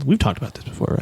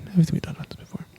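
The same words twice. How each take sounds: First: Said in the usual way. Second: Quick, soft whisper; hushed, fast afterthought under the breath; whispered aside. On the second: Real, not acted. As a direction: drop to a hurried whisper. Hushed aside repeating the remark.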